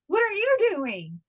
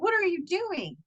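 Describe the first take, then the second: First: Slower, higher retort throwing it back; imitated husband. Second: Higher, puzzled challenge; retold startled question to husband; surprised question. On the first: Husband turning question on wife, slow mocking retort. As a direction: mimic husband, drawn out and pitched up. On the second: Wife surprised husband is up, higher puzzled question.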